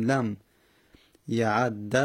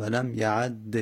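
First: لم یعد read "lam ya'adda"; lower-pitched لم یعد, doubled d ending in a; fatha ending. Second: لم یعد read "lam ya'adde"; slow لم یعد, doubled d ending in e; kasra ending. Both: Shown as a demonstration. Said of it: "فقط فتحه و کسره".

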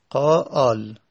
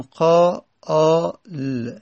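First: "قا آل" in two beats, the end joined; joined in two syllables. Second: "قا آ ل" drawn out slowly, piece by piece; broken into sounds. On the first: Teacher repeating the changed word, "قا آل" joined in two beats. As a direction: say "قا", then "آل" as one piece. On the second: Teacher showing students the changed word, "قا آ ل" slowly broken up. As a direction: separate "قا", "آ" and "ل" with pauses. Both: Shown as a demonstration.

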